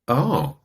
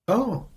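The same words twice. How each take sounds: First: The 'oh' sounds doubtful and unsure. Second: The 'oh' sounds curious and interested. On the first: The listener is starting to doubt it. "there's a little bit of doubt creeping in" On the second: The listener is open and interested. "that sounds a little bit like maybe curiosity"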